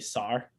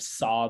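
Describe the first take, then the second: First: The word ends with an added r sound. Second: The word ends in a plain vowel, no r. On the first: "they say sar" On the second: "instead of saw"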